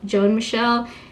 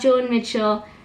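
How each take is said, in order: First: The last name is said as Michelle. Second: The last name is said as Mitchell. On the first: The speaker calls it right. "So just keep it simple" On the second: The speaker calls it wrong.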